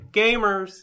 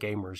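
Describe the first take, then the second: First: The word is said loudly and excitedly. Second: The word is said flatly, without excitement. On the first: The speaker calls it right. "There's an exclamation point there, so ... You have to say Gamers!" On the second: The speaker calls it wrong. "you can't say Gamers"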